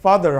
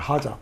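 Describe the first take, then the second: First: It is said with a native English accent. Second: It is said with a Japanese accent, like hadza. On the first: "발음 좋은 사람들은 father 할 거고" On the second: "father를 하자라고 그래요"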